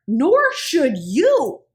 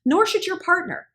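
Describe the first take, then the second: First: Nor should you drawn out slow and louder; slow emphatic stress. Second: Said in the usual way. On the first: Shown as a demonstration. To her viewers, driving it home with slow stress. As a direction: lean hard on nor should you, slowly.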